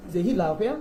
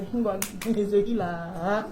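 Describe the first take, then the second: First: Said in the usual way. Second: Mocking. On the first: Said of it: "the greatest mockery". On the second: Shown as a demonstration. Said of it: "the greatest mockery is the one nobody can hear".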